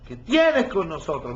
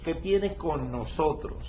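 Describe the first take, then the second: First: Said in the usual way. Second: Slow, with weight laid on "nosotros"; slow deliberate reading that leans on "nosotros"; stress on nosotros. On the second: Shown as a demonstration. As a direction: draw out "nosotros" so the plural is heard. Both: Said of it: "Miren la palabra nosotros".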